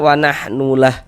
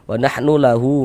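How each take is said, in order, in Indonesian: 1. Berhenti pada h, tanpa vokal panjang. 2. Hu di akhir ditahan dengan vokal panjang. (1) "berwakaf kita berhenti kita di huruf H, maka gugur tanda panjangnya" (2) "kalau misalkan kita wasolkan, kita tidak berhenti... baru berlaku tanda panjangnya"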